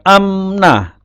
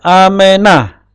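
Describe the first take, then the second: First: The m and n are joined with no vowel. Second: A short e vowel sits between m and n. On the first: The speaker calls it wrong. "Bukan bukan amnah" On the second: The speaker calls it right. "disebutkan e-nya, e pendek"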